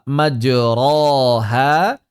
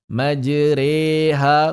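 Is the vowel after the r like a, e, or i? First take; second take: a; e. First: The vowel after r is an open a. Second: The vowel after r is e as in tempe. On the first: The speaker calls it wrong. "tidak dibaca majroha" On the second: The speaker calls it right. "menggabungkan keduanya menjadi majreha"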